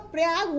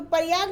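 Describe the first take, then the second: First: Said in the usual way. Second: प्रयाग as pa-ri-yag; wrong pronunciation. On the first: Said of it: "क्या होगा, प्रयाग होगा". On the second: Shown as a demonstration. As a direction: break up the opening pr of प्रयाग with vowels. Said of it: "प्रयाग नहीं होता".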